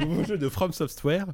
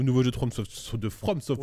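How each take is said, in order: First: Slow, laughing through it; laughing retake. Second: Tripping over the name; stumbling. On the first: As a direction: give it a second go, laughing. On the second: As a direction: trip on the words and stop. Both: Real, not acted. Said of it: "C'est pas mieux la deuxième fois".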